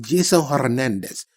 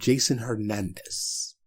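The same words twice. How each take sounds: First: The name is said in a put-on Spanish-style accent. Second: The name is said in a plain American accent.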